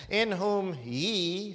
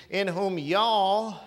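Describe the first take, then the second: First: "ye" drawn out long and slow; slow, deliberate reading that stretches "ye"; Elizabethan "ye". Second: Loud southern "y'all", drawn out; southern dialect. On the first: Preacher reads the old English wording to church, stretching "ye". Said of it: "that's second person plural Elizabethan English". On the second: Preacher rewords scripture for his church in loud southern dialect. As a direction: lean on a long southern "y'all". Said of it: "if that was in the southern language dialect". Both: Shown as a demonstration.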